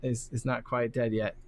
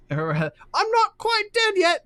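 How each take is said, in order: First: Said in the usual way. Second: High, slow clown voice; silly clown. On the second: Shown as a demonstration. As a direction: squeal it like a stubborn clown. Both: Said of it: "that's what he says".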